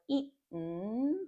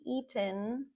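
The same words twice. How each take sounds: First: The T is stopped in the throat before n. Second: The T is pronounced fully and clearly.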